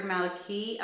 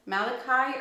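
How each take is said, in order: First: Maliki ending in "kee", rhyming with see; long-e ending. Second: Malachi ending in "kai", rhyming with eye; long-i ending. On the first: Reviewer offering another perfume name reading, Maliki ending like "key". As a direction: say Maliki with a final ee sound. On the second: Reviewer unsure of a perfume's name, Malachi ending like "sky". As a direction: say Malachi with a final long i sound. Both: Shown as a demonstration. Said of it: "not sure which is the right way to say it".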